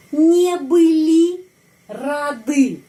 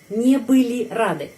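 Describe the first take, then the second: First: Slow, high dictation, не были and рады split by a pause; slow drill. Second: Said in the usual way. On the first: Shown as a demonstration. Teacher modelling a plural negative for learners, slow drill.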